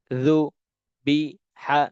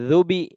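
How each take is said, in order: First: Ruby stretched very slowly, each sound held long; slow drawn-out reading. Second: Said in the usual way. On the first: Shown as a demonstration. Teacher models Ruby for Quran students, very slow and drawn out. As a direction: draw out Ruby syllable by syllable. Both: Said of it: "যেমন".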